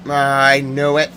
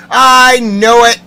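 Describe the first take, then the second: First: Said in the usual way. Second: High, loud, drawn-out cry; indignant yell. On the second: Real, not acted. Insisting to listeners on being right, yelling. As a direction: yell it slowly in vindication. Vindicated yell, then subdued repeat.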